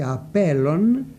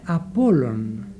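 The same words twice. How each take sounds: First: «απέλλων» drawn out with a rising end; old form said slowly. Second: «απόλλων» drawn out and lower; new form said slowly. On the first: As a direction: spell out «απέλλων» slowly, each sound clear. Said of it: "Με προληπτική αφομοίωση η λέξη". (αργή, καθαρή προφορά του «απέλλων») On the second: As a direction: say «απόλλων» slowly, each sound clear. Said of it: "έγινε". (αργή, χαμηλότερη προφορά του «απόλλων») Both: Shown as a demonstration.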